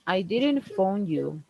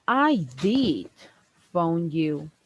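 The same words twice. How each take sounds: First: Slow, with "didn't" drawn out and pressed; "didn't" stretched and stressed. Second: "did" hit hard: I DID phone you; correcting someone, leaning on "did"; stress on did. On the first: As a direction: lean slowly on "didn't". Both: Shown as a demonstration.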